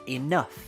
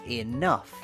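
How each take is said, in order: No difference in how they are said.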